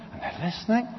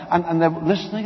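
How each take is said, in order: First: Fading hush. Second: Said in the usual way. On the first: A narrator's reading. Soldiers spellbound listening to Jesus, hushed and fading. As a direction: let it fade to a hush.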